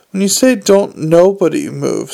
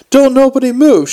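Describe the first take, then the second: First: Measured, careful quoting of an order. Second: High, loud yelled command. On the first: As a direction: repeat it fastidiously, without any yelling. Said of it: "said Drumknot carefully". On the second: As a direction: yell it to freeze the whole room. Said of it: "she yelled". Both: A narrator's reading.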